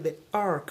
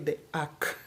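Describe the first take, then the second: First: The R sound in 'ark' is clearly pronounced. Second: The R sound in 'ark' is dropped. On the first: This is the American way of saying it. "I may not say the ark" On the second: This is how it is said in the local Kenyan accent. "we will say the ark"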